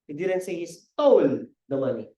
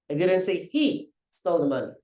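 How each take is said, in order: First: The word stole carries the stress. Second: The word he carries the stress. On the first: "Hindi naman yan, ninakaw eh. Hiniram lang" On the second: "Sinabing siya, kasi siya"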